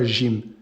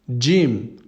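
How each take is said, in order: First: It starts with a soft zh sound. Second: It starts with a dj sound. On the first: The speaker calls it wrong. "Pas un J directement, on ne dit pas Jim" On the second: The speaker calls it right. "un D et un J"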